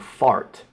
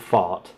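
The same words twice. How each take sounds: First: It is said in an American accent. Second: It is said in a British accent. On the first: "which is the American way of saying fart" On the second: "I said fart"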